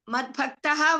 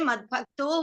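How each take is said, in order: First: The word ends with a full 'aha' sound. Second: The word ends with a short 'o' sound. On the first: The words are kept split. "Madbhaktaha, we can say" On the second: The sounds are joined by sandhi. "we can say Madbhakto"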